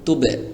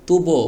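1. শেষ স্বরধ্বনিটি 'e'-এর মতো শোনায়। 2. শেষ স্বরধ্বনিটি 'o'-এর মতো শোনায়। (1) "আমি এখন যেভাবে করছি খেয়াল করুন" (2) "বো বললে হবে না"

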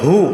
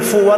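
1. শব্দটি h ধ্বনি দিয়ে শুরু হয়। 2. শব্দটি f ধ্বনি দিয়ে শুরু হয়। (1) "কি হবে? হু" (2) "ফু হবে না"

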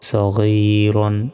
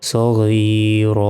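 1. শব্দটি ছোট আ ধ্বনিতে শেষ হয়। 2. শব্দটি দীর্ঘ টানা আ স্বরে শেষ হয়। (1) "র আলু 2 জবর রন" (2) "থামলে একটা জবর উচ্চারণ হবে"

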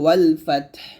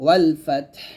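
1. শেষ শব্দটি সাকিন দিয়ে শেষ হয়। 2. শেষ শব্দটি সাকিন দিয়ে শেষ হয়।

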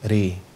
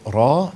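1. الحركة مائلة نحو 'e'. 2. الحركة فتحة مفتوحة عادية 'a'. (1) "تبقى ري" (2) "بدل أقول را"

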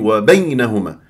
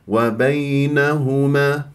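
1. انزلاق ay مقطوع وغير سلس. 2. انزلاق ay ناعم وسلس. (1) "ما تقولي" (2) "بهذه الطريقة، يا بليونة وسلاسة"

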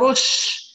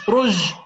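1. الحرف بعد الراء صوت شين. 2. الحرف بعد الراء صوت جيم. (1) "بدنا رش" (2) "ما بنقول رج"

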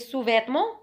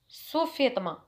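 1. تنتهي بصوت 'mon' الفرنسي الأنفي. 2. تنتهي بصوت 'ma' بسيط وقصير.

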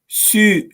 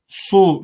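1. Hece çok ince söyleniyor. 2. Hece kalın söyleniyor. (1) "Sü şeklinde ne ince" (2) "su şeklinde kalın okumamamız lazım"

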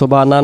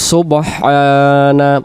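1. মাঝের 'h' ধ্বনিটি বাদ পড়ে। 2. মাঝের 'h' ধ্বনিটি স্পষ্ট উচ্চারিত হয়। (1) "এই জায়গায় যেন সুবানা সুবানা না হয়" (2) "উচ্চারণ হবে সিনবা পেশ সুব, হা জবর হা"

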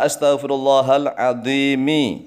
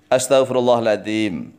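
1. Kata terakhir diakhiri dengan vokal i. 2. Kata terakhir diakhiri dengan m, tanpa vokal. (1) "mimnya kasroh" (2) "memnya disukun"

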